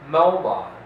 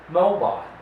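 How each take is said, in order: The two takes are said the same way.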